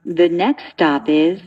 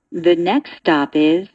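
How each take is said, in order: Both takes have the same delivery.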